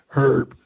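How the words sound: It is said with a British pronunciation. "for British speaking people"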